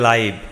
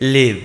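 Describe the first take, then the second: First: The vowel is a long 'eye' sound. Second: The vowel is a short 'it' sound. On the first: It means alive. "যখন আমরা জীবন্ত বলবো তখন তার উচ্চারণ হবে লাইভ" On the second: It means to reside somewhere. "যখন আমরা বাস করা বলবো তখন তার উচ্চারণ হবে লিভ"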